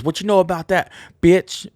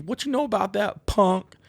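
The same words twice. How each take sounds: First: Loud high yelled lyric. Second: High mocking lyric line; sing-speak the lyric high; quoted lyric. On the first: Retold or imitated. Imitating the singer yelling the lyric, loud. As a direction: belt the line like the singer. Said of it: "he goes". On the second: Quoting the band's lyric, pitched up high. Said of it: "instead of them saying".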